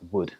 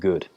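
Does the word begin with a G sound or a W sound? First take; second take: W; G. First: The word begins with a W sound. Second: The word begins with a hard G sound. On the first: The speaker calls it right. "It is wood" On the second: The speaker calls it wrong. "Be careful not to pronounce wood as g g g with a G sound"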